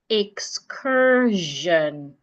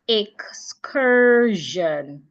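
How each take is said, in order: First: The ending is voiced, like 'zhun'. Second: The same.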